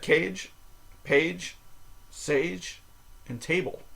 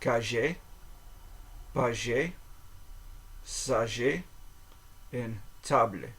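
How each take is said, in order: First: The words are said with an English accent. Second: The words are said with a French accent. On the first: "four words that just look like English words" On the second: "approximate these with what I would think of as a French accent"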